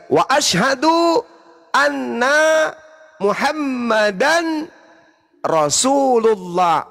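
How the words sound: There is a pause between Muhammadan and Rasulullah. The speaker calls it right. "menunggu orang yang bersyahadat mengucapkan Muhammadan, baru kita lanjut Rasulullah"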